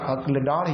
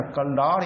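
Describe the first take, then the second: First: Second अक्ल said as akl, k running into l; correct pronunciation. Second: First अक्ल said as akkal, vowel before the l; colloquial pronunciation. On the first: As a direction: say अक्ल with no vowel between k and l. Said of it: "और शुद्ध यही होता है अक्ल". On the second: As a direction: stretch अक्ल into two syllables, ak-kal. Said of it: "इसको कुछ लोग अक्ल भी कहते हैं". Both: Shown as a demonstration.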